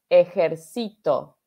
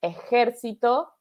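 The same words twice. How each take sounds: First: Ejercito slowed down, ejerCIto with CI stressed. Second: Ejército slowed down, eJERcito with JER stressed. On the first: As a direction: lean on the third syllable of ejercito, e-jer-CI-to. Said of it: "en la sílaba tónica". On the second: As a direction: lean on the second syllable of Ejército, e-JER-ci-to. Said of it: "ese es de military". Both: Shown as a demonstration.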